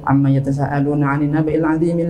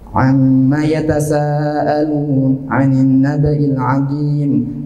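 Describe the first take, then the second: First: It is recited quickly in one breath. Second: It is recited at a moderate pace. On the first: "satu tarikan nafas itu bisa sepuluh ayat digandeng" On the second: "membaca Al-Quran dengan lebih sedikit lebih cepat"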